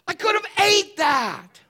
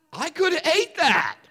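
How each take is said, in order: First: Much higher, louder, slow; exasperated outburst. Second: High, louder, laughing through it; mock a dude who'd gladly eat it, laughing. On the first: Retold or imitated. Pastor exclaiming over the wasted burger, loud and high. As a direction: blurt it out in mock disbelief. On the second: Dude laughing at wasted burger, high and louder. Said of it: "if you're a dude, you're like".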